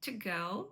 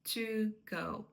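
First: "to" as a very short schwa leaning on "go"; reduced "to". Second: "to" with a clear long oo before "go"; full "to". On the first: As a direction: nearly swallow the vowel of "to". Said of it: "поряд такий звук шва". (дуже коротеньке "to" зі звуком шва) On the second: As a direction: pronounce "to" fully, apart from "go". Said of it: "я не буду казати". (чітке повне "to") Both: Shown as a demonstration.

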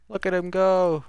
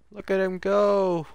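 The two takes are said the same way.

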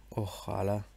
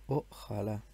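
Both takes have the same delivery.

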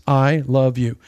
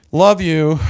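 First: Said in the usual way. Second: A sneering, dismissive "Love you."; mocking love you. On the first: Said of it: "There's the text". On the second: Shown as a demonstration. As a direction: toss off "Love you." with contempt. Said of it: "Mockery has to do with tone".

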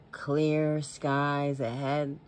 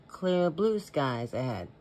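First: Very slow, "Clear" stretched out; drawn-out saying. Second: "blue" leaned on, slow delivery; stress on BLUE. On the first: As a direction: savor each word of "Clear skies ahead". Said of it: "Do you remember the saying". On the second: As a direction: hit the new word "blue". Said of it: "then it got changed to". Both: Shown as a demonstration.

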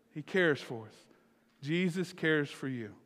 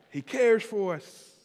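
First: Subdued, sincere statement with falling pitch. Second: CARES drawn out high; slow, heartfelt proclamation leaning on "cares"; emphatic declaration. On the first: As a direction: let it settle gently. Same words repeated more softly. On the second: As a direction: stretch "cares" slowly with a raised, falling pitch. Emphatic first take, then repeated softly. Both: Real, not acted.

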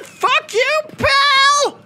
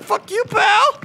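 First: Top-of-the-range squealed yell; mock furious retort. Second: Very high, squawked comeback; mock angry retort. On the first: Player topping the game's insult, squealed mock fury. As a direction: blow up into a hammed-up high yell, louder on the last word. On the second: Player answering the game, high mock retort. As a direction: throw it back in a high, hammed-up voice. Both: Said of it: "And I'm like".

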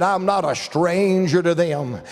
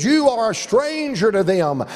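First: Said in the usual way. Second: "You" pitched up and emphasised; stress on YOU. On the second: Retold or imitated. Shepherd telling the visitor who is the stranger, stress on "You". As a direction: lean hard on "You".

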